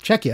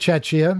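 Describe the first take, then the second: First: The name begins with a 'k' sound. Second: The name begins with a 'ch' sound. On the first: The speaker calls it right. "that's how you're supposed to say it" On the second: The speaker calls it wrong. "I said Czechia because that's how it's spelled"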